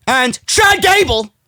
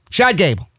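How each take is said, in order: First: Slow, raised-pitch mock awe; mock amazement. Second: Said in the usual way. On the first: Real, not acted. Host mocking Sheamus's so-called emphatic wins, mock amazement. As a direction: make the name sound absurdly grand. Mocks the beaten opponents.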